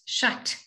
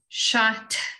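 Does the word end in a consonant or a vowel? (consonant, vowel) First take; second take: consonant; vowel. First: The word stops on the final t. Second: A short vowel sounds after the final t. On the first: The speaker calls it right. "It's shat" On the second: The speaker calls it wrong. "It's not shat"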